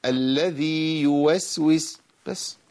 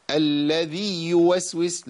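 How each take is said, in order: First: Slow, "الذي" with a long ya, not doubled; "الذي يوسوس" with a clean long ya; correct recitation. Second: Slow, with a doubled ya in "الذي"; "الذي يوسوس" with the ya stressed; wrong doubled ya. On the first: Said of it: "لا". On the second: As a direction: lean on the ya of "الذي". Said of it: "لا، الذي يوسوس بس". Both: Shown as a demonstration.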